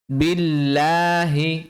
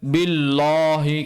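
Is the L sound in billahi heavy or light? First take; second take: light; heavy. First: The l sound is light and thin. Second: The l sound is heavy and thick. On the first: The speaker calls it right. "Lamnya kita tipiskan" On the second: The speaker calls it wrong. "Bukan billahi. Kalau billah ini lamnya tebal"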